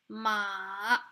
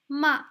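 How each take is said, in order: First: The pitch dips down, then rises. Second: The pitch falls sharply downward. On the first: It means horse. "it kind of goes downwards and upwards again" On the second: It means scold. "the falling tone sounds like this"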